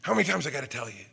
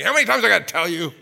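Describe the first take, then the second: First: Said in the usual way. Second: Loud, fast exasperated shout; dad yelling at his son, loud and fast; imitated dad yelling. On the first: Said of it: "God's still saying that to me". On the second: Dad scolding his son, loud exasperated shout. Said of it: "my dad used to yell at me".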